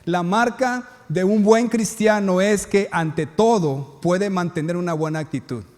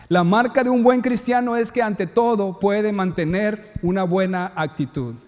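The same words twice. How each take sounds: First: Slow dictation so notes can be taken. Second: Said in the usual way. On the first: Shown as a demonstration. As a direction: spell it out slowly for note-takers. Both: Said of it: "Así que apunten tus notas esto".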